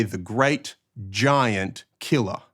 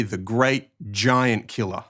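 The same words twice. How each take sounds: First: Slow, "giant" and "killer" set apart as separate words; pauses between GIANT and KILLER. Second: "giant killer" joined as one unit, "giant" stressed. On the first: Teacher showing a killer who is very tall, slow separated stress on giant, killer. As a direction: split "great... giant... killer", each word weighted. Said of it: "This is a killer who is very tall". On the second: Teacher showing Bible readers how emphasis changes meaning, stress on giant-killer. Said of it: "a person who kills giants". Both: Shown as a demonstration.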